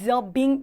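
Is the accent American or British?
British. It is said in a British accent, reduced. "어에 가깝게 발음하기 때문에 some documents are being 이런 식으로 들리기"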